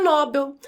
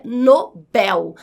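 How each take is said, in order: First: NOBEL stressed on the first syllable, open NÓ; wrong pronunciation. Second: NOBEL with the last syllable strongest, no-BÉL; correct pronunciation. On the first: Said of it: "a pronúncia não é Nobel". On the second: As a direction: say Nobel slowly, stressing final BEL. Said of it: "A sílaba mais forte é a última". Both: Shown as a demonstration.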